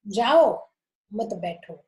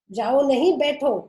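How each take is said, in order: First: "जाओ" alone, pause, then "मत बैठो"; pause after jao. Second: "जाओ नहीं, बैठो" with a break after नहीं; pause after nahin. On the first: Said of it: "दूसरे में". ("जाओ" के बाद ठहराव, फिर "मत बैठो") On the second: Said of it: "पहले में". ("जाओ नहीं" पर ठहराव, फिर "बैठो") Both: Shown as a demonstration.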